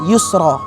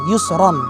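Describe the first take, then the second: First: The word ends with a lengthened vowel. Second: The word ends with an n sound. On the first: The reader stops on this word. "Pada saat kita wakofkan dia jadi yusro" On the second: The word is read in the middle of a phrase. "Itu kan kalimatnya adalah yusron"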